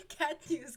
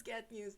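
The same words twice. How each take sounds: First: Loud, high mock headline; news announcer. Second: Said in the usual way. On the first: Real, not acted. Streamer jokingly headlines her cat story: loud mock announcer.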